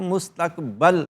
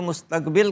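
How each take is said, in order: First: The last syllable has an 'a' vowel. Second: The last syllable has an 'i' vowel. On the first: The speaker calls it right. "मुस्तकबल आने वाला" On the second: The speaker calls it wrong. "लोग इसको मुस्तकबिल कहते हैं, गलत है"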